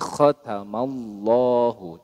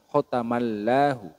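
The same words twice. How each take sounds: First: The L in Allahu sounds thick and heavy. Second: The L in Allahu sounds thin and light. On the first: The speaker calls it right. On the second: The speaker calls it wrong.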